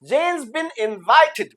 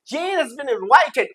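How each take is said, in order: First: 'Has' is reduced to a 'z' on 'Jane'. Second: 'Has' is said as a full separate word. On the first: "ये हैज का ज बन गया सिर्फ" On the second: "ये हैज been है"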